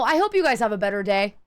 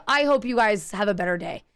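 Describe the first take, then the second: First: Sarcastic sweet goodbye, voice dipping; pointed farewell. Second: Lower, cooler sarcastic goodbye; a sugary jab with a stammer; pointed farewell. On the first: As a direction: wish them well with a bite. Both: Retold or imitated. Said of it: "Just like that".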